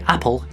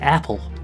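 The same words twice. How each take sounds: First: It has a short Scottish-style vowel. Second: It has a longer American-style vowel. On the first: "We'd say apple" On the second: "you might say apple"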